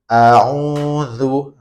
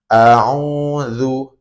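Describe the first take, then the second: No difference in how they are said.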